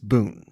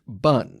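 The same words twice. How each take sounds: First: The vowel is a long 'oo' sound. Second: The vowel is a short 'uh' sound. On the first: The speaker calls it right. "The Vietnamese word for what we know as vermicelli is bun" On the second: The speaker calls it wrong. "I was only recently corrected for pronouncing it bun"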